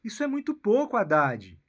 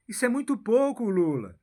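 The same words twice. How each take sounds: First: Said in the usual way. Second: Whisper. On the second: Acted. Repeat addressed to Lula, whispered.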